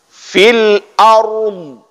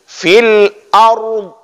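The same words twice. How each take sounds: First: The last word ends on a bare consonant. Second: The same.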